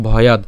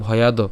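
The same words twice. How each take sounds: First: ভয়াদ cut off on d, no final o; vowelless final consonant. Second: ভয়াদ said as "bhoyado", final vowel sounded; full final vowel. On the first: Teacher gives the actual pronunciation, ভয়াদ with halant d. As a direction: end ভয়াদ on a bare d. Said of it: "আমরা এর উচ্চারণ মূলত করছি কি". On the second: Teacher shows the word without halant, ভয়াদ ending in "do". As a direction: add an o after the d in ভয়াদ. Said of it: "হর্ষ চিহ্ন না থাকতো". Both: Shown as a demonstration.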